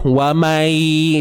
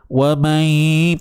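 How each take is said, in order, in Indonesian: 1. Bunyi gabungan itu sama sekali tidak memiliki dengung sengau. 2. Bunyi gabungan itu memiliki dengung sengau yang jelas. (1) "dia hanya masuk je, tetapi tidak ada unsur dengung" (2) "pastikan ada bunyi sengau kat hidung kita"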